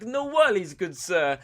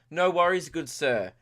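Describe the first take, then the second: First: High, loud hammed-up Italian; mock Italian accent. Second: Said in the usual way. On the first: Italian food-van man taking the order, mock Italian accent. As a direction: do a cartoon Italian vendor. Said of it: "he'd probably be Italian". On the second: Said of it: "Actually, no, he'd probably be Italian".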